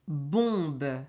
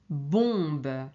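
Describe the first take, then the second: No difference in how they are said.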